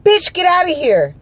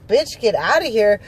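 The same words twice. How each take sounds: First: High, loud possessed-woman snarl at her; exorcist outburst. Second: Said in the usual way. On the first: Retold or imitated. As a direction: blow up suddenly, high and loud, imitating the guard. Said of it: "went from regular to fucking exorcist". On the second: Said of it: "I'm like".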